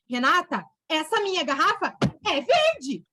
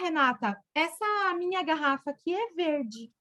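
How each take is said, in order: First: It is said in a harsh, aggressive tone. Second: It is said in a calm, normal tone. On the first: The speaker is scolding the listener. The speaker calls it wrong. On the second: The speaker is simply stating a fact. The speaker calls it right.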